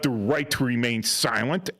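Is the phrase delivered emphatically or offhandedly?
emphatically. The phrase is delivered firmly and with emphasis. The listener is meant to use the right and stay silent. "if I wanted them to evoke, you know, to evoke their um, right to remain, remain silent, it would be my inflection"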